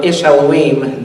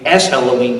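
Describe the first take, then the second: First: Ish said with a short "ee" vowel, Ish Elohim; "Ish Elohim" read carefully as the Hebrew for man of God; Hebrew pronunciation. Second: "Esh Elohim" set apart from Ish as fire of God; Hebrew pronunciation. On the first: Teacher explaining the Hebrew pun to the class, saying Ish carefully. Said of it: "in the Hebrew, you know, man of God is Esh". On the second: Teacher contrasting Esh with Ish for the class, stressing Esh. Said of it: "So Esh is fire". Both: Shown as a demonstration.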